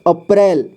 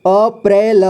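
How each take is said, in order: First: Said in the usual way. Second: अप्रैल split as अ, प्रै, ल; syllable by syllable. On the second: Shown as a demonstration. Teacher showing learners अप्रैल, sounded out in parts. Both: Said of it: "अप्रैल पढ़ेंगे इसे".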